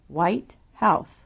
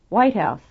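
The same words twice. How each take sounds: First: The second word is also loud and clear. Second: Only the first word is loud and stressed.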